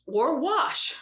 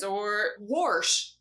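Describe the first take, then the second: First: "wash" said as "wahsh", open ah vowel, no r; standard "wash". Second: "wash" said as "warsh", with an r before the sh; regional "warsh". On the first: Teacher gives the other way to say "wash" as "wahsh". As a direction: clean "wash" with a short open ah, no r sound. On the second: Teacher showing a regional way to say "wash" as "warsh". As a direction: drawl "wash" out as "warsh", r-coloured vowel. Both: Shown as a demonstration. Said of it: "some people say buggy and some people say cart".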